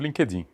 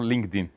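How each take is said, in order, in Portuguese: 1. É falado com pronúncia do português brasileiro. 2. É falado com pronúncia inglesa. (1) "No Brasil" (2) "Lá fora eles falam"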